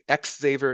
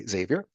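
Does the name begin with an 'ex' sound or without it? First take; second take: ex sound; without. First: The name begins with an 'ex' sound. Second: The name begins without an 'ex' sound. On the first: The speaker calls it wrong. "don't say X Xavier, you will get canceled" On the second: The speaker calls it right. "You have to say Xavier"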